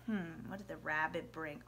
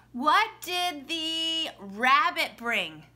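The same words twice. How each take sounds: First: Low, soft musing to yourself; hushed thinking-it-over question; pretend pondering. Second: Put-on slow, clear question to small children; children's quiz question. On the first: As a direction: wonder aloud quietly, as if puzzling it out. Muses over the question, waiting. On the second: Shown as a demonstration. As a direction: ask it big and drawn out, word by word.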